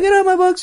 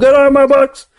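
First: It is said in a normal, quiet voice. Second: It is said in a loud, raised voice.

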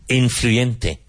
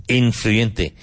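No difference in how they are said.

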